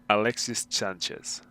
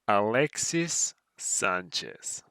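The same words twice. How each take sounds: First: It is said at normal speed. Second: It is said slowly.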